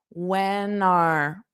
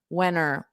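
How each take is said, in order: First: Both words are said fully and stressed. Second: The words blend into one unstressed 'whenner'. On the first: "you can say when are to be fully stressed" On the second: "a more of an unstressed whenner"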